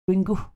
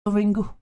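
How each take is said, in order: First: The final vowel is a soft reduced schwa. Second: The same.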